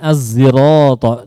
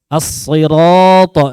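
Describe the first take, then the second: First: It starts with a thick, emphatic z sound. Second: It starts with a thick, emphatic s sound. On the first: "dengan zai ishmam" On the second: "dengan sod"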